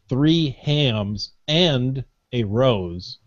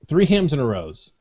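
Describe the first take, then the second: First: The phrase is said slowly. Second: The phrase is said quickly. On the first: The speaker calls it right. "Let me say that slowly" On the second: The speaker calls it wrong. "I'm saying it too fast"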